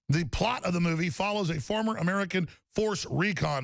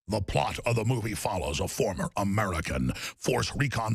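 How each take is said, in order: First: It is read in his ordinary speaking voice. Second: It is read in a put-on robot character voice.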